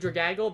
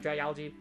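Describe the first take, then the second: First: The ending sounds like 'gaggle', without 'algae'. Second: The ending sounds like the word 'algae'. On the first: The speaker calls it wrong. "I say Dragagle" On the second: The speaker calls it right. "algae from the sea, like Dragalge"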